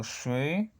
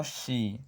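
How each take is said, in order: First: "shui" with hard sh and retracted i; slow "shui", the i pulled back and dark; hard shi. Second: "xi" as a soft shi with Spanish i; wrong soft shi. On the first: Teacher says how to pronounce it, hard shi. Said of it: "Yo digo shui". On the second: Teacher shows learners the mistake to avoid, soft shi. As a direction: say "xi" with a light, fronted ee. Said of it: "Y no xi". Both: Shown as a demonstration.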